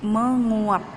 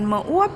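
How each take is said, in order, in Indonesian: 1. Awalannya 'meng' dengan bunyi 'ng'. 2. Awalannya hanya 'me' tanpa 'ng'. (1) "tetapi menguap, meng" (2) "bukan meuap ya"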